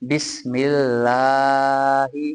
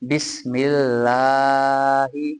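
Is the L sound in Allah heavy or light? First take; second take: light; light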